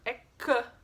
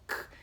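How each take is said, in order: First: The k sound is followed by a vowel. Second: The k sound is said alone, without vowel. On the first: The speaker calls it wrong. "Mas isso não tá certo" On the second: The speaker calls it right. "O som é apenas K"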